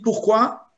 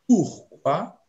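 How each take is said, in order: First: "pourquoi" as one joined word, rising; interrogative pourquoi. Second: "pourquoi" broken into "pour... quoi", rising; split pour quoi. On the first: Contrasting two meanings for students, questioning. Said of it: "c'est l'interrogation". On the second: Telling students it means towards what, split apart. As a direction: separate pour from quoi with a small gap. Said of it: "c'est vers quoi?". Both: Shown as a demonstration.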